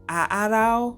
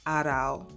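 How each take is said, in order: First: The two opening vowels are said separately. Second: The two opening vowels are merged into one. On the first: The speaker calls it wrong. "I keep calling it A A Rao" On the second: The speaker calls it right. "but it's Aarau"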